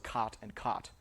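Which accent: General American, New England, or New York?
General American. Both words rhyme, with an unrounded vowel.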